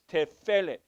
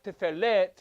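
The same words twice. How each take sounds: First: The stress is on the first syllable. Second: The stress is on the last syllable. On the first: The speaker calls it right. "The accent will be on the first syllable, not the last syllable" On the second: The speaker calls it wrong. "it's not tefelet"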